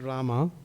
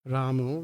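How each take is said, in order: First: The name ends with an 'a' vowel. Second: The name ends with an 'o' vowel. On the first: The speaker calls it right. "we chant Rama" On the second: The speaker calls it wrong. "the O. ... the Bengalis kind of, because their pronunciation is like that. But we don't do that"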